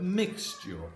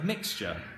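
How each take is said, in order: First: The ending is sounded out carefully, as spelled. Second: The ending is said in a relaxed everyday way. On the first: This is how the word is read from its letters. "but mixture" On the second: This is how the speaker naturally says it. "I would say mixture"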